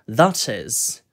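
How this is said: The middle t is clear and crisp. "영국식 같은 경우에는 T 발음을 살려가지고"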